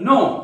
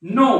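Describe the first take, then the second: First: The k sound is silent at the start. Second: The same.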